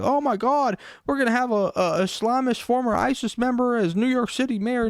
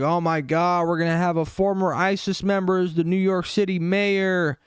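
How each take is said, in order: First: A much higher, hammed-up panicky mock voice; mocking Middle America. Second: A slightly raised mock voice for panicking critics. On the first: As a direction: squeal it like a frightened parody of Middle America. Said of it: "Middle America". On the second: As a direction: lightly parody the outraged critics. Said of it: "They're like".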